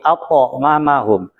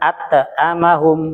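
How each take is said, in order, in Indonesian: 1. Bunyi t-nya tebal, ditebalkan. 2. Bunyi t-nya tipis, tidak ditebalkan. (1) "tapi at'amahum" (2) "Membacanya bukan at'amahum"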